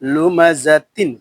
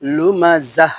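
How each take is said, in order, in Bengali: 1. শব্দটি -tin ধ্বনি দিয়ে শেষ হয়। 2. শব্দটি নরম h ধ্বনি দিয়ে শেষ হয়। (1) "আর তানবিনের উচ্চারণ কি করতে হবে, এখানে দেখেন" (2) "তা সাকিন হয়ে হা হয়ে যাবে"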